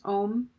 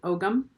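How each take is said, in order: First: The word is said as one syllable, 'ohm'. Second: The word is said as two syllables, 'og-am'. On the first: The speaker calls it right. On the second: The speaker calls it wrong.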